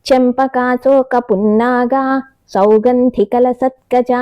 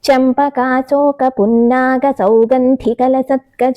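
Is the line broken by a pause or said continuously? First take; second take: pause; continuous. First: The line is broken with a pause midway. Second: The line is said in one continuous flow. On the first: The speaker calls it wrong. "అలా చదవకూడదు" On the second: The speaker calls it right. "అది కూడా పూర్తి పాదం చదవాలి"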